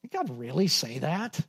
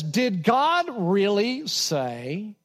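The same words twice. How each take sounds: First: Softer, mocking disbelief; quietly scornful doubt; incredulous. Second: Slow, drawn-out doubting question; mock incredulity; incredulous. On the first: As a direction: scoff at the very idea. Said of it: "You, you can hear that in his voice here". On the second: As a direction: sound like you can't believe it. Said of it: "you can hear the incredulity in his voice".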